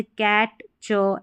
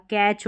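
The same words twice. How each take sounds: First: कैट च in two separate parts; split pronunciation. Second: कैच joined as one syllable; silent T. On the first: Teacher breaking up the word for learners, कैट च split. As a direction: sound the t of कैट, then च alone. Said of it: "ऐसे पढ़ दिया". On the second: Teacher showing the finished word, कैच without separate T. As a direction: say कैच with ch straight after the vowel. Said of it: "ट को छोड़ देना है". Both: Shown as a demonstration.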